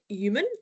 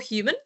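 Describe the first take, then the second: First: The word starts with a vowel, no h. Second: The word starts with a clear h sound.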